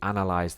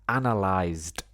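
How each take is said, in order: First: The word ends without any T sound. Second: The word ends with a clear T sound. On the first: The action is done habitually. The speaker calls it wrong. "that sounds like it's something habitual" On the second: The action is finished. The speaker calls it right. "I emphasize the analyzed with the T sound"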